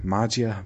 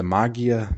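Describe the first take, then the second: First: "Magia" with a soft g, MAH-jee-a; soft G pronunciation. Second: "Magia" with a hard g, MAH-ghee-a; hard G pronunciation. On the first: Unsure of a group's name, tries "Magia" with soft g. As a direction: say "Magia" with g as in "gem". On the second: Unsure of a group's name, tries "Magia" with hard g. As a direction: say "Magia" with g as in "gift". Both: Shown as a demonstration. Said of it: "is it the Magia".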